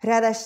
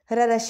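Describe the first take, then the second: No difference in how they are said.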